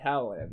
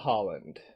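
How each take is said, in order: First: The first syllable sounds like the word 'how'. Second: The first syllable does not sound like 'how'. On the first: The speaker calls it right. "you take how and then you add land to it" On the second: The speaker calls it wrong. "You said my last name wrong"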